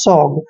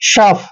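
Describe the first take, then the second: First: The word ends with a g sound. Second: The word ends with an f sound. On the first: The speaker calls it wrong. "ऐसे आपने नहीं पढ़ना है, ये गलत तरीका है" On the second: The speaker calls it right. "ओ यू जी एच का उच्चारण फ करते हैं"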